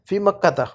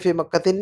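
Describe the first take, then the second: First: The word ends with an a vowel. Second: The word ends with an in sound. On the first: The speaker calls it right. "ज़बर ही लगाते हैं" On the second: The speaker calls it wrong. "नहीं कहना कभी भी लाइफ़ में"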